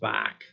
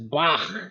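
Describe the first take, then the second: First: It ends with a plain hard k sound. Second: It ends with a rough, throaty ch sound. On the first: The speaker calls it wrong. "It's not just Bach" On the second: The speaker calls it right. "It's Bach"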